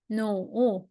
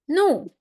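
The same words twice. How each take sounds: First: The pitch dips low, then rises. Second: The pitch falls sharply from high. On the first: "and the third tone" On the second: "and the last tone"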